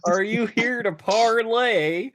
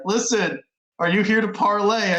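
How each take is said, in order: First: High, slow, hammed-up Southern drawl; mocking the fake Arthur Morgan drawl; bad Southern drawl. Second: Hammed-up fake Southern drawl, pitched up; a lightly done, bad Southern accent; cowboy parley in a poor Southern drawl. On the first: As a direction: stretch it out in a terrible Southern accent. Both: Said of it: "the worst Southern drawl that anyone has ever heard".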